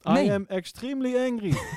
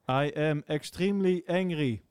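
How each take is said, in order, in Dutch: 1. Er zit enige emotie in de stem. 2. Het is vlak uitgesproken, zonder enige emotie.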